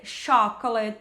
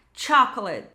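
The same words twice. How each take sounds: First: "chocolate" as "shoc-o-let"; wrong, SH start. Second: "chocolate" as "CHAK-lit"; correct, stronger CH. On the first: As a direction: soften the CH of "chocolate" into SH. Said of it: "não vai ser chocolate". ("chocolate" errado, sem o T inicial) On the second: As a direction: open "chocolate" with a T before the SH. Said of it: "vai ter esse som mais forte". ("chocolate" com som de "tch") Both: Shown as a demonstration.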